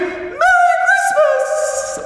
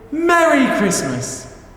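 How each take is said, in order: First: It is said loudly, in a celebrating way. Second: It is said in a warm, welcoming way.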